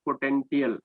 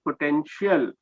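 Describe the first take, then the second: First: "potential" with a hard t, po-ten-ti-al; wrong pronunciation. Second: "potential" with a sh sound, po-ten-shial; correct pronunciation. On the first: English teacher warns against the slip, "potential" with hard t. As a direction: say "potential" with t instead of sh. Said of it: "not potential". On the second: English teacher applies the rule, "potential" said with sh. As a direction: say "potential" with sh in the last part. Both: Shown as a demonstration.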